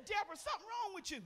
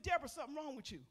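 First: Lightly imitating the husband, pitched up; a hint of the teasing husband; husband's line, said higher. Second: Said in the usual way. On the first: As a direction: quote him with a higher, amused lift. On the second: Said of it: "he said".

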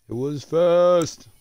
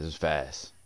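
First: High, slow, stretched voice; drawn-out silly voice. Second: Said in the usual way. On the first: Pretend. Repeats line in drawn-out voice.

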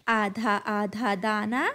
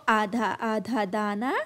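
Both takes have the same delivery.

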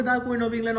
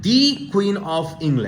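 First: "The" said as quick light "thuh", no weight; unstressed the. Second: "the" stressed as a long "dee", very slow; emphatic the. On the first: Teacher shows the Queen of England said casually without stress. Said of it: "Queen of ইংল্যান্ডকে যদি জোর না দাও". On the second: Teacher shows emphatic "dee" in the Queen of England. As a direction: lean hard on "the", said "dee", before "Queen". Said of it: "যেমন আমি কি বললাম". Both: Shown as a demonstration.

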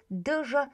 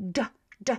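First: "d, ż" split, one after the other; two sounds in turn. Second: "d" blended with ż into one quick dż; short single sound. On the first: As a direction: say "d" then "ż" as separate sounds. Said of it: "one after the other". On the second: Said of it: "very short and one sound". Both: Shown as a demonstration.

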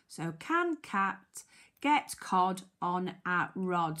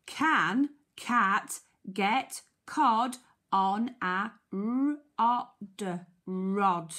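First: Said in the usual way. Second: Very slow, each word set apart; word-by-word reading. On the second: Shown as a demonstration. Teacher helping children decode the question, word-by-word reading. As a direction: sound out "rod" slowly, then blend it.

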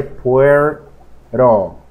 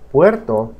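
First: "puerto" drawn out slowly, the T softened away; T-less pronunciation. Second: Said in the usual way. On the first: Shown as a demonstration. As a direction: say "puerto" slowly in two parts, like "pwer-ro". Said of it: "la letra T". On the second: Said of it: "se dice puerto".

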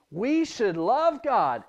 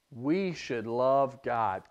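First: Put-on slower and louder, said along with the children; group recitation. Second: Slow, deliberate, stress on we; slow statement. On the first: Teacher reciting together with the children, louder. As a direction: lead the echo, voice lifted. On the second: Teacher giving a line for children to repeat, slow. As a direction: set up the phrase slowly for the kids to echo. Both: Shown as a demonstration. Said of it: "Can you say that one with me".

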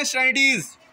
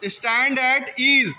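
First: "Stand at ease" run together as one quick word; rapid drill-style "Stand at ease", words fused; said quickly. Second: "stand at ease" slowly, word by word; unhurried, fully pronounced "stand at ease"; full careful form. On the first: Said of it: "जल्दी से क्या पढ़ते हैं". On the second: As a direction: separate "stand at ease" into three drawn-out words. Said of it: "उसको जल्दी से क्या पढ़ते हैं?". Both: Shown as a demonstration.

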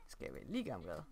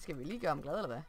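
First: Much lower and softer, a goofy mock voice. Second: Said in the usual way. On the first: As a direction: drop the voice low and soft for a joke. Repeats question in odd voice.

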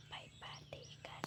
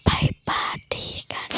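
First: Very soft hushed whisper; soft whispered invite. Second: Louder stage whisper; urgent louder whisper. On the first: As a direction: barely breathe the invite so nobody wakes. Secret invitation at night. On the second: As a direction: push the whisper so it carries. Secret invitation repeated. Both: Acted.

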